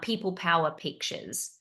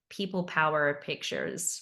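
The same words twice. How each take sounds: First: The name is said in a non-American accent. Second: The name is said in an American accent.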